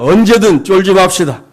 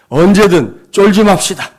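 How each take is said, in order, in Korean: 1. 당당하고 자신감 있는 목소리로 말하고 있습니다. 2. 주눅 들고 움츠러든 목소리로 말하고 있습니다. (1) "다시 축복합니다" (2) "그 쪼는 목소리잖아요. 그거는 쫄지 말자는데 쫄아요"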